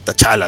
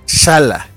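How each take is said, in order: First: The name starts with a T sound. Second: The name starts with a plain SH sound. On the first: "ya le dicen T'Challa, así" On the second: "se pronuncia Shala, porque la T era silenciosa"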